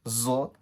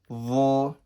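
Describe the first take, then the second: First: The letter name begins with a z sound. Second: The letter name begins with a heavy th sound. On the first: The speaker calls it wrong. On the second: The speaker calls it right.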